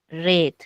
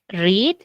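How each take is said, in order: First: It is said with the past-tense pronunciation. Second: It is said with the present-tense pronunciation. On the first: The action already happened. "en pasado es red" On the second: The action happens now. "En tiempo presente es read"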